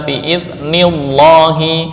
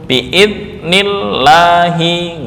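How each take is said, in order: First: The l in Allah sounds heavy and full. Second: The l in Allah sounds light and thin. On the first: The speaker calls it wrong. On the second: The speaker calls it right.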